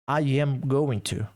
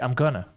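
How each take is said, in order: First: Every word is said fully, with no contraction. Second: Going to is reduced to gonna.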